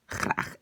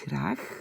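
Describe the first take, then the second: First: The g is harsh and voiceless. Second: The g is soft and voiced. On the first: This is the Netherlands pronunciation. "aux Pays-Bas... j'exagère un peu... il n'a pas de voix" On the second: This is the Belgian pronunciation. "en Belgique, le g est assez doux"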